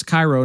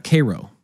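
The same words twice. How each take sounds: First: Cairo said as "KY-roh"; "eye" sound in the front of Cairo; Egyptian Cairo. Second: Cairo said as "KAY-roh"; long "ay" at the front of Cairo; Nebraska's Cairo. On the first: Host citing Egypt's usage, Cairo as "KY-roh". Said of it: "in Egypt, it's Cairo". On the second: Host ruling it out for Egypt, Cairo as "KAY-roh". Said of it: "not Cairo". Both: Shown as a demonstration.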